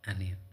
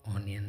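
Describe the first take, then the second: First: The first vowel is an open 'uh' sound. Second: The first vowel is a rounded 'oh' sound. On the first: The speaker calls it right. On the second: The speaker calls it wrong. "ओनियन नहीं"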